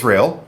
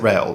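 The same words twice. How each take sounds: First: "Real" said like the English word real; "Real" as the likelier reading of the name; alternative name reading. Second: "Rael" with an A sound before the L; "Rael" pronounced as spelt, ra-el; chosen name reading. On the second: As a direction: say the name as "Rael", not like real. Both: Shown as a demonstration. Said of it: "I'm gonna pronounce it Rael".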